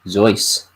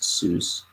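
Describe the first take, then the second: First: The name is said like a German name. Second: The name is said to rhyme with goose. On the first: This is how the family name was really said. "actually pronounced Zeus. Like the German name" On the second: This is the pen-name pronunciation for the books. "it was pronounced Seuss, ... kind of reminiscent of uh, Mother Goose"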